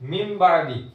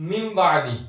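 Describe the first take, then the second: Both takes have the same delivery.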